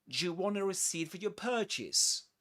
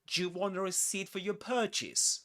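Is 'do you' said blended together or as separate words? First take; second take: blended; blended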